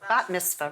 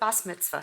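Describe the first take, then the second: First: The first word ends with a t sound. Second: The first word ends with an s sound. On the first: This is the form people use today. "Everybody today calls it bat mitzvah" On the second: This is the older form the speaker's family used. "we called it bas mitzvah"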